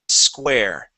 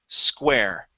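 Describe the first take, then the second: No difference in how they are said.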